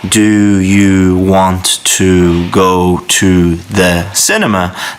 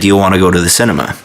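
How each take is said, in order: First: Each word is said slowly and separately. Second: The words run quickly together as one. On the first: "very, very slowly and very, very clearly" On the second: "They link all the words together"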